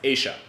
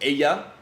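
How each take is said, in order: First: The double L sounds like an English sh. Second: The double L sounds like an English y. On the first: This is the Buenos Aires pronunciation. "Here in Buenos Aires, it's pronounced" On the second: This is the usual Spanish pronunciation. "the double L typically makes like a Y sound"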